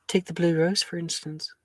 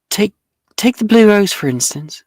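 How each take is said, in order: First: It is said at normal volume. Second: It is said louder.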